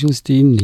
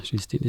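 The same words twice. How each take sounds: First: "Justine." said the German way, J like Y, yoos-TEE-neh, clear and emphatic; German pronunciation. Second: Put-on "Justine" said the French way, soft zh at the start, zhüs-TEEN with no final vowel; "Justine" as a French name: zhüs-TEEN; French pronunciation. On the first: Guest correcting the name "Justine." to German, emphatic pronunciation. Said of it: "Natürlich heißt sie Justine und nicht Justine". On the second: Guest showing the French name "Justine", French pronunciation. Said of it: "Justine ist eher französisch". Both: Shown as a demonstration.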